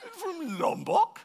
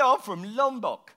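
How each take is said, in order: First: High, slow, rising disbelief; incredulous echo. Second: Slow, higher mock British accent; strong British accent. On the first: Acted. Visitor questioning the local's unlikely origin, incredulous. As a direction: echo it back in astonishment. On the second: Island local confirming his home to visitor, strong British accent. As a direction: state it slowly in a British accent. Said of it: "You've got a very strong British accent".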